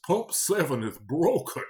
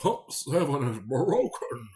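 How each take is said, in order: First: Put-on slow, loud, high old Englishman grumble; old English man voice. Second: Slow, loud, high, put-on old English accent; old English man voice. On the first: Cashier imitating an angry customer at the register, old English man voice. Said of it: "that's exactly how he sounded". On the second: Retelling the broken-pump complaint in an old English man voice. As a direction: do the angry old Englishman again, stretched out. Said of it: "He sounded like an old English man".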